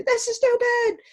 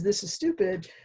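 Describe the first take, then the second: First: Much higher, louder defensive student snapping back; defensive and aggressive. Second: Said in the usual way. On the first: Retold or imitated. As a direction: throw it at the teacher defensively. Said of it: "defensively and sort of aggressively". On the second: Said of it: "a student who says".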